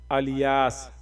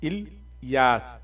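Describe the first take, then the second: First: الیاس said as "aliyaas", open a and a full i-ya; wrong common pronunciation. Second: الیاس slowly as "il-yaas", short i and a long yaas; correct pronunciation. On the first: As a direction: demo the popular mispronunciation "aliyaas" for الیاس. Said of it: "عوام مختلف طریقے سے لکھتی ہے اور کہتی ہے". (الیاس کو "الیاس" غلط انداز میں، الف پر زبر اور یا کھینچ کر) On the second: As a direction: model الیاس carefully and slowly as "ilyaas". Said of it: "کیا ہے؟". (الیاس کا صحیح تلفظ، آہستہ "اِل یاس") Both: Shown as a demonstration.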